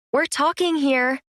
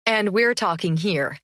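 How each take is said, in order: First: "talking" pitched high and leaned on, set against "here"; stress on talking. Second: "we're" leaned on with a falling tune; sneering stress on we're. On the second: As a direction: punch "we're" in a mild sneer. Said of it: "Ashton said with a sneer". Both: Acted.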